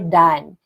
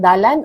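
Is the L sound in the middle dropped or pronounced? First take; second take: dropped; pronounced. First: The middle L sound is dropped. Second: The middle L sound is pronounced. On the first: "We don't pronounce the letter L, we just say dan" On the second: "these are the variation"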